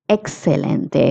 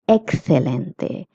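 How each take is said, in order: First: It is said with a Latin American accent. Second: It is said with a Spanish accent. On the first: "If you're in Latin America, you can say" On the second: "If you're in Spain, you will say"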